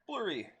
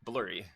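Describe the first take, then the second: First: High retry. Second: Said in the usual way. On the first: Real, not acted. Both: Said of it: "It's not the word I was looking for".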